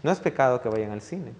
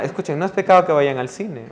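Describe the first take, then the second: First: Softer and lower, leaning on "No"; stress on no. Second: Louder, with "pecado" punched and falling; stress on pecado. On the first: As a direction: press the opening "No" gently to reassure. (acento en "No", más suave) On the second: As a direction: hit "pecado" hard to make the point. (acento fuerte en "pecado") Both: Shown as a demonstration. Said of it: "¿ok?".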